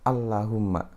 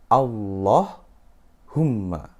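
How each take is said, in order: First: The L is light and thin. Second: The L is heavy and thick. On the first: The speaker calls it wrong. "Bukan Allahumma" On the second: The speaker calls it right. "tapi dia harus tebal"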